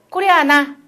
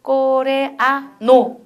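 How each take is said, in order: First: 코레아나 said briskly with an open 나 ending; 스페인어 여성형. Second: 코레아노 drawn out very slowly, syllable by syllable; 스페인어식 발음. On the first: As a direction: finish 코레아나 on a clear open 나. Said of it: "여자일 때는 코레아나". (여성형 "코레아나", 끝을 "나"로) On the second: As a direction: stretch 코레아노 into open Spanish syllables, ending on 노. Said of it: "스페니쉬로 딱 가면 뭐라고 발음해요?". (스페인어처럼 "코-레-아-노" 아주 천천히) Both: Shown as a demonstration.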